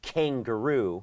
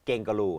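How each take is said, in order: First: The first k has a strong puff of air. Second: The first k has no puff of air. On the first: The speaker calls it right. "ต้นคำก็ต้องเป็น, K" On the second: The speaker calls it wrong. "ไม่ใช่"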